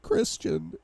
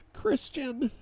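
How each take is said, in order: First: Very high, tearful call; sobbing. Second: High, desperate cry of the name. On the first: Wife sobs to husband on the phone, tearful. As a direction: choke out the name in a high sob. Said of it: "she sobs". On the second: Wife calls husband's name, desperate. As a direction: call out pleading, pitched far up. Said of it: "Her desperation is laced with every syllable". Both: A narrator's reading.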